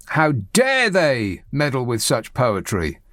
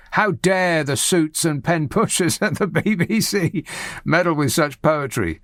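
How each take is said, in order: First: Drawn out, mocking the pompous columnist; slow mock outrage. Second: Said in the usual way. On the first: Host mocking a Spectator columnist, slow mock outrage. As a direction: slowly parody the indignant writer's line.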